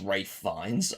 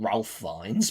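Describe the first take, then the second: First: The first name sounds like Rafe. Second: The first name sounds like Ralph. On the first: The speaker calls it right. "his name is pronounced Ralph Fiennes" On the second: The speaker calls it wrong. "I always said Ralph Fiennes before"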